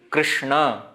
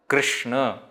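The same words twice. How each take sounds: Both takes have the same delivery.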